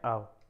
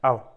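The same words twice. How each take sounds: First: It is said warmly and affectionately. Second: It is said sternly and threateningly.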